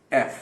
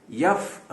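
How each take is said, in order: First: ایف with a crisp glottal start, no y; ایف, sharp clean onset. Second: یف said slowly with a y glide, the wrong way; wrong yef. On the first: Teacher shows the correct ایف after the wrong یف. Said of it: "ای کی طرح sharp sound سے شروع ہوگا". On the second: Teacher shows students the wrong pronunciation یف. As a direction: demonstrate the mistake یف, slow. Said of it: "آپ اس کو یف نہ کہیں". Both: Shown as a demonstration.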